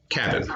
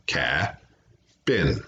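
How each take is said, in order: First: Said in the usual way. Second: "Cabin" with a long gap after the first syllable; "Cabin" slowly pulled into two parts; tapped into syllables. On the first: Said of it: "Repeat it". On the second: Shown as a demonstration. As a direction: say "Cabin" as ca, pause, bin. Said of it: "Tap it out".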